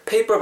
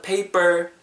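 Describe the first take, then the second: First: "paper" with a puffed p in the middle, pay-PUH; aspirated second p. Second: "paper" with a tight Korean ㅃ-like middle p; unaspirated second p. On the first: Teacher showing the version to avoid, "paper" with aspirated middle p. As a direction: say "paper" with both p sounds strongly aspirated. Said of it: "paper보다는 paper". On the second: Teacher showing the preferred "paper", tight unaspirated middle p. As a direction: say "paper" as pay-bber, puff only the first p. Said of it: "뒤에는 삐읍". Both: Shown as a demonstration.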